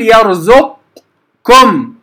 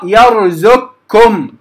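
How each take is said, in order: First: يرزقكم with a heavy q-like start to the doubled kaf; wrong heavy merge. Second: يرزقكم with ق fully merged into a doubled, light ك; slow recitation of يرزقكم, qaf becoming a thin kaf. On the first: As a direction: slowly say يرزقكم as yarzuqkum. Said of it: "لا أفخم أول الكاف". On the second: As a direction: say يرزقكم as yarzukkum, light k from the start. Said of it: "فتقرأ يرزقكم". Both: Shown as a demonstration.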